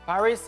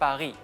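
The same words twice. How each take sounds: First: The final s is clearly pronounced. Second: The final s is left silent. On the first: "Paris is the English version" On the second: "but in France we say Paris"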